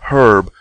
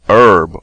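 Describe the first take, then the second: First: The word starts with a pronounced h. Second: The word starts without an h sound. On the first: The speaker calls it right. "originally renamed herb to" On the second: The speaker calls it wrong. "renamed herb to herb"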